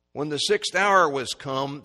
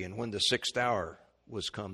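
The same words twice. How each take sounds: First: "When the sixth hour was come" slower and louder, leaning on hour; solemn emphasis on the sixth hour; slow emphatic reading. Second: Said in the usual way. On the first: Shown as a demonstration. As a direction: read it again with weight on hour.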